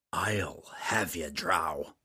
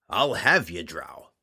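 First: Whispered low menacing growl; quiet growl. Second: Loud gruff threat with falling end; loud growl. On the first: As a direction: breathe the threat softly. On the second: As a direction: snarl it across the room. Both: Acted. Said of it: "growled again quietly".

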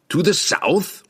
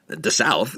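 First: Higher, eager happy question; happy cry. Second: Laughing blurt. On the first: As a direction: cry out with glee. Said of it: "the dwarf cried happily". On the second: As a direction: blurt it through a high laugh. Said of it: "Salah Dalib blurted". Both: A narrator's reading.

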